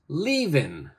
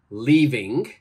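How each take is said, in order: First: The final g sound is left off. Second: The final g sound is clearly pronounced. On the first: The speaker calls it right. "we say" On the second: The speaker calls it wrong. "We don't say"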